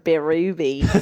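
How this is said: It is said with a broad Australian accent.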